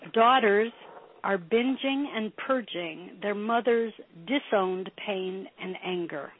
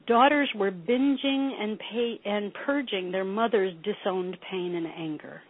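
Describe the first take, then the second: First: It is said slowly. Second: It is said fast.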